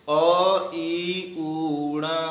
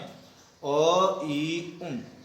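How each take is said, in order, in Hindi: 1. अंतिम n पूरा बोला जाता है, इसके साथ स्वर है। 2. अंतिम n आधी लंबाई का है, इसके बाद कोई स्वर नहीं। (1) "हमको इस तरीके से नहीं बोलना है" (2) "इसका जब हम उच्चारण करेंगे तो इस तरीके से करना है"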